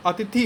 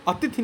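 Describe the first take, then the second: First: अतिथि with short final i; correct form. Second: अतिथि as the misspelt reading, long final ee; wrong form. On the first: Teacher explains the small vowel mark, अतिथि with short "thi". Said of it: "था पे छोटी की मात्रा होगी". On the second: Teacher rejects the misspelling, अतिथि with long final ee. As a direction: draw out the last vowel of अतिथि. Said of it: "नहीं होता है". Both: Shown as a demonstration.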